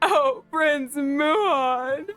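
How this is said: It is said in a man's voice.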